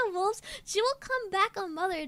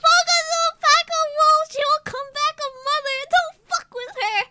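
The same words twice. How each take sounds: First: Lighter repeat of the slogan, a touch quicker; calmer slogan. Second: High, loud hype shout; hype slogan. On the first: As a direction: say it again, less shouted. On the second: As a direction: belt it like a t-shirt slogan. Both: Shown as a demonstration. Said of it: "Can we get that on a shirt".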